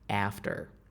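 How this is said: The first vowel is a flat front 'a'. "whereas we would say after"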